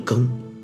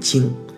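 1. 这个音节读 geng。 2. 这个音节读 jing。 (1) "但现在要读更" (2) "大部分人可能会读经"

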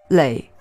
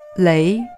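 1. 先降到低音，再升上去。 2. 从中音升到高音。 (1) "读3声累时" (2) "读2声累的时候"

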